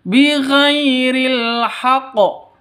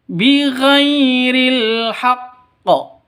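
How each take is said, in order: First: Chanted haqo without the held q; wrong undoubled q in haqqo; single q in haqqo, wrong. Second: Chanted haq, held stop, bounced qo; doubled q in haqqo. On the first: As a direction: run ha straight into qo as a mistake. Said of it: "bukan seperti ini cara bacanya". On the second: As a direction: hold the q of haqqo before releasing it. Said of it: "Seperti itu". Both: Shown as a demonstration.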